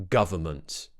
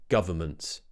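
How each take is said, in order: The two takes are said the same way.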